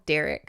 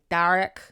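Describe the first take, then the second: First: It is said in a plain American accent. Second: It is said in a Scottish accent.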